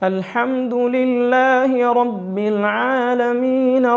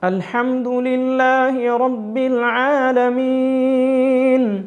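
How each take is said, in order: First: The final long vowel is held only briefly. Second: The final long vowel is stretched out long. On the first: The recitation continues into the next verse. "ആലമീൻ അവിടെ നാം ഒരലിഫിൻ്റെ ഖദറേ നീട്ടിയുള്ളൂ" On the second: The recitation stops after this word. "ഇപ്പോൾ നമ്മൾ വഖഫ് ചെയ്തത് നീട്ടിയിട്ടായിരുന്നു"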